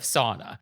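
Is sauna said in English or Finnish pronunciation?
English. The word is said with an English pronunciation. "instead of sauna"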